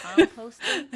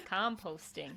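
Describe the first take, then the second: First: "Composting?" with short O, loud and laughing; American pronunciation. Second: "Composting." with long O, calm; "Composting." said com-POHST-ing; British pronunciation. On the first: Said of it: "How you'd say composting?". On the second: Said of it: "That's what you'd say, right?". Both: Shown as a demonstration.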